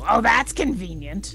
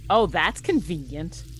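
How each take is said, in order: First: It is said in the character's voice. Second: It is said in the speaker's normal voice.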